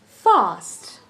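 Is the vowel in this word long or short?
long. The vowel is long and drawn out. "While in the British, you say fast"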